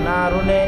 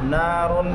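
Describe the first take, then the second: First: An extra 'e' vowel follows the final n. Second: The word ends cleanly on the n sound. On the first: The speaker calls it wrong. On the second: The speaker calls it right.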